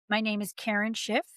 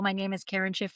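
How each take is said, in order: First: It is chunky, with strong stressed syllables. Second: It is fast, with flat, even stress. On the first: The speaker calls it right. "a very chunky language full of stress" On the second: The speaker calls it wrong. "a very fast, flat way of speaking"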